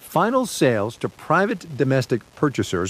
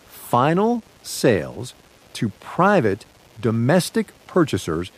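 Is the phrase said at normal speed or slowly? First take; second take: normal speed; slowly. First: It is said at normal speed. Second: It is said very slowly.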